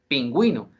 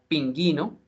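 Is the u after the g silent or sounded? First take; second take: sounded; silent. First: The u after the g is sounded. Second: The u after the g is silent. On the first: The speaker calls it right. "sino pingüino" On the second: The speaker calls it wrong. "no se pronunciaría pinguino"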